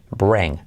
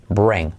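Both takes have the same delivery.

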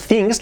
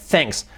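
First: "things" with a tight Spanish I; higher-pitched wrong "things", EE vowel. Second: "thanks" standing for things, vowel opened toward E; relaxed short vowel in "thanks"; corrected vowel. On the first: Retold or imitated. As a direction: imitate "things" as THEENGS. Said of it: "cuidado que no es things". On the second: Shown as a demonstration. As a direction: model "thanks" as THENGS. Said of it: "la I como una E".

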